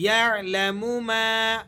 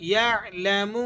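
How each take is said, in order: First: ما drawn out one alif long after یعلم; stretched alif. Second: یعلم with the mim kept short, not drawn out; یعلم said without stretching. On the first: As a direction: lengthen the ma. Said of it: "الف مدہ ہے تو اسے آپ نے کھینچ کر پڑھنا ہے". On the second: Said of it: "اس میم کو نہیں کھینچا جائے گا". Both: Shown as a demonstration.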